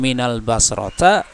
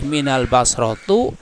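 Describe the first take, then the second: First: The last word ends in an a vowel. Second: The last word ends in a u vowel. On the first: "Tidak boleh minal basrota" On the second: "tidak boleh minal basrotu"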